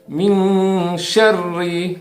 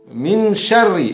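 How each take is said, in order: First: The n is hidden, held and nasalized. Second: The n is clear, short and not nasal. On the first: The speaker calls it right. "Seharusnya adalah min syarri" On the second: The speaker calls it wrong. "tidak ditahan, tidak mendengung dan tidak samar"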